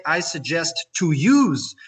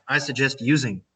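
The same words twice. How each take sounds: First: "to use" picked out, louder and stretched; stress on TO USE. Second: "using" said evenly with a falling end; correct form. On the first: Teacher quotes the incorrect form, stressing "to use". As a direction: lean hard on "to use". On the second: Teacher corrects the mistake, calmly landing on "using". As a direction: settle firmly on "using". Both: Shown as a demonstration. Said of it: "it will be incorrect".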